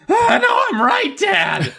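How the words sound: It is said in a put-on shrill voice. "Every time I try a shrill voice, it comes out like"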